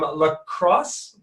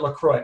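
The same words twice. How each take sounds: First: "La Crosse" said like "cross", with the S heard; first guess at pronunciation. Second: "LaCroix" ending in "croy", no S; alternative pronunciation. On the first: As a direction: say "La Crosse" to rhyme with boss. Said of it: "or is it LaCroix?". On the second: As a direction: say "LaCroix" French-looking, with a silent X. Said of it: "I'm pronouncing that wrong". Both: Real, not acted.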